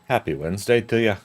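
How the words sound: It is said in a put-on Irish accent. "Oops, I just did it"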